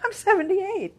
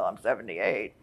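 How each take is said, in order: First: The voice sounds proud and upbeat. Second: The voice sounds apologetic and resigned. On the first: The age is a source of strength. The speaker calls it right. "I say it like, I'm 78" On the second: The age is an excuse. The speaker calls it wrong. "not like, well, I'm 78"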